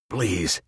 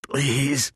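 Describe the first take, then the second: First: Put-on old man groaning please; groaned plea. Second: Much higher, thin moaning please. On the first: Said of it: "he groaned". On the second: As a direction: moan it, nearly spent. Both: A narrator's reading.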